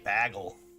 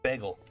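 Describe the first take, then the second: First: The word is said in a Boston accent. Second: The word is said in a plain accent. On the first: "If you're from Boston, you say it interesting" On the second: "it's pretty easy"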